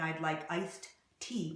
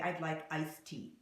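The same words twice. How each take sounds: First: The D and T sounds are said separately. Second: The D and T sounds merge into one. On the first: The speaker calls it wrong. "instead of saying" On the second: The speaker calls it right. "we say"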